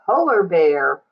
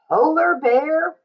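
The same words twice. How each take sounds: First: Polar Bear, lower and settling down; falling answer. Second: Polar Bear, with a high rising lift on Polar; rising title. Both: Shown as a demonstration. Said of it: "title read twice".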